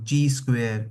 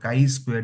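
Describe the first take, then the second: First: The first word sounds like 'chee'. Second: The first word sounds like 'kai'. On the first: "कोई बोलेगा इसको ची square" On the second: "कोई बोलेगा इसको काई स्क्वायर डिस्ट्रीब्यूशन"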